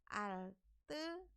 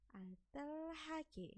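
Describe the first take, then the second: First: The h sound is dropped and blended away. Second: The h sound is pronounced clearly. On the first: The speaker calls it right. "Tapi bacanya adalah alterage. ... Ini adalah cara baca yang benar" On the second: The speaker calls it wrong. "Ini tulisannya memang altel altelhage"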